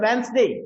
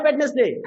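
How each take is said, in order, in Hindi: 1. बीच की D ध्वनि मौन रहती है। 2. बीच की D ध्वनि बोली जाती है। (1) "Where D is a silent letter" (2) "Actually it's not a Wednesday"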